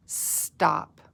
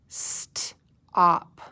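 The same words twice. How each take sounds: First: Said in the usual way. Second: "St-op" broken after the st; a long hissed st, a gap, then op in "St-op"; slowly sounded out. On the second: Shown as a demonstration. Teacher reading together with pupils, slowly sounded out. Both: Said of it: "say it slowly together".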